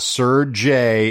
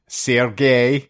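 First: The name sounds like an English knight's title. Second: The name is said the Russian way. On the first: The speaker calls it wrong. "sounds like he's a fucking British knight" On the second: The speaker calls it right. "it's Sergei"

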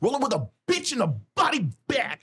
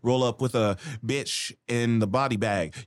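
First: The B sounds are crisp and hard-hitting. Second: The B sounds are soft and loosely pronounced. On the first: The speaker calls it right. "the enunciation of your B's are so hard hitting" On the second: The speaker calls it wrong. "before I'd be like"

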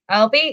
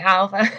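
First: The name is said with a 'b' and ends 'bee'. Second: The name is said with a 'v' and ends 'vuh'. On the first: The speaker calls it wrong. "they're like" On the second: The speaker calls it right. "and I say Alva"

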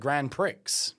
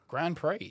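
First: The final x sound in Prix is pronounced. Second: Prix ends without an x sound, like pree. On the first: The speaker calls it wrong. "I said Grand Prix" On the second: The speaker calls it right. "Didn't realize it was Grand Prix"

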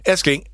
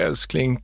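First: It is said in a bossy, demanding tone. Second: It is said in a tender, grateful tone.

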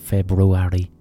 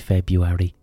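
First: The first R sound is pronounced. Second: The first R sound is dropped. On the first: "Why is it February?" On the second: "Why can't it just be February?"

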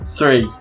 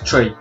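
First: The word begins with a 'th' sound. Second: The word begins with a plain 't' sound. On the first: This is the word the speaker intends. "I'm saying three" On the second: This is how it comes out in an Irish accent. "but it comes out as tree"

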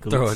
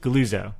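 First: The middle consonant is a ts sound. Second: The middle consonant is a plain z sound. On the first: "people just say Galuzzo. Throw a T in there" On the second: "gull, lose, oh"

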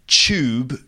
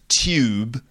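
First: The word is said with the London pronunciation. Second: The word is said with a non-London pronunciation. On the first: The speaker calls it right. "It's like the way we say tube" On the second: The speaker calls it wrong. "not tube"

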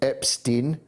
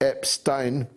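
First: The name is said the American media way. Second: The name is said the presenters' own way. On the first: "I hear the American media pronounce the name Epstein" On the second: "whilst you, me, producer Epstein"

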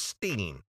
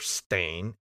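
First: The syllable rhymes with 'seen'. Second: The syllable rhymes with 'rain'. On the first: This is the name as remembered from childhood. "it was E-I-N, Steen" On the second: This is the current spelling of the name. "it's Stain, S-T-A-I-N. It was never Stain"

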